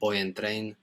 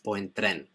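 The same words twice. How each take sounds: First: It is said with an English-sounding accent. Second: It is said with a Spanish-sounding accent. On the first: The speaker calls it wrong. "be careful not to say it like the English. It's not" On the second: The speaker calls it right.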